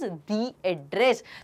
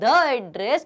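First: 'The' is said with a long 'thee' vowel. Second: 'The' is said with a short 'thuh' vowel. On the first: The speaker calls it right. "It is दी address" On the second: The speaker calls it wrong. "So it is not द address"

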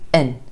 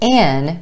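First: The word has a short, reduced vowel. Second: The word has a full, clear vowel.

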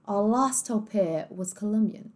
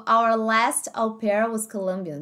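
First: It is said in a British English accent. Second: It is said in an American English accent.

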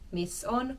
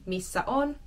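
First: The first word drops its final vowel. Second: The first word keeps its final vowel.

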